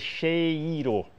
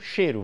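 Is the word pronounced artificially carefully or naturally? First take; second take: artificially; naturally. First: The diphthong is over-articulated in an unnatural way. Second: The vowels are said in everyday relaxed fashion. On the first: It shows the spelled diphthong, which nobody actually says. The speaker calls it wrong. "Você não vai dizer cheiro. A gente não diz isso porque artificializaria" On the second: It shows that the word rhymes with tempero. The speaker calls it right. "porque tempero, cheiro"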